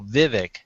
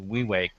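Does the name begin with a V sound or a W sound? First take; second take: V; W. First: The name begins with a V sound. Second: The name begins with a W sound. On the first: The speaker calls it wrong. "people see your name in the audience and they go" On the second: The speaker calls it right. "says it properly"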